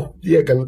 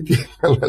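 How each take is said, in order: First: Said in the usual way. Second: «τι έκανα» said through a laugh; «τι έκανα» with the laugh breaking in. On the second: Retold or imitated. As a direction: laugh while you repeat «τι έκανα». Repeats the quote laughing.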